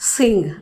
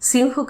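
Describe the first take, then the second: First: The word ends with an ng sound. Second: The word ends with a breathy h sound. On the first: The speaker calls it right. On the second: The speaker calls it wrong. "నిజానికి అది సింహ్ కాదు"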